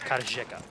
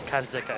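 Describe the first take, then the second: First: The middle consonant is a zh sound. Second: The middle consonant is a plain z sound. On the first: The speaker calls it right. "it's that H" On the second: The speaker calls it wrong. "It's not Karzeka"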